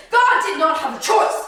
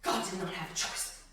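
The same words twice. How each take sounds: First: Loud, high proclamation; emphatic declaration. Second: Low, soft, sobered statement; hushed repetition. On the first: Preacher declaring God had no choice, loud and emphatic. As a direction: proclaim it forcefully, pitched up. Declaration, then repeated softly. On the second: Preacher letting God's lack of choice sink in, hushed. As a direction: drop it low and quiet, gravely. Same declaration repeated hushed. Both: Real, not acted.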